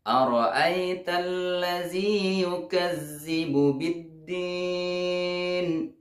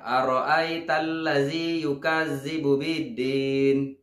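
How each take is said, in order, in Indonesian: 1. Huruf ganda dibaca dengan jelas. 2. Huruf ganda dibaca lemah dan tidak jelas. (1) "Harus dibaca dengan jelas" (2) "ini masih kurang jelas tasydidnya"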